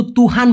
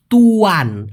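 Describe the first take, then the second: First: তুহান with a clear h, tu-han, the form to avoid; wrong pronunciation. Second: তুয়ান said tu-an with no h between the vowels; correct pronunciation. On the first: Teacher warns students off the wrong word, pointed. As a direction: say তুহান with an audible h to mark the mistake. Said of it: "আমি কিন্তু তুহান বলি নাই". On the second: Teacher gives students the right word, firm and clear. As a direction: give তুয়ান as the right form, two smooth vowels tu-an. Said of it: "কি বলে ডাকবেন". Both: Shown as a demonstration.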